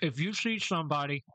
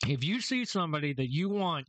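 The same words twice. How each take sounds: First: Talking around a mouthful of ice; words muffled by crunching ice; chewing ice. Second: Said in the usual way. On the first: Real, not acted. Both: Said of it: "sorry, chewing on ice".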